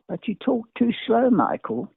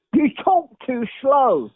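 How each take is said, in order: First: Said in the usual way. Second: The director's note, slow and drawn out; slow, emphatic repeat. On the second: Retold or imitated.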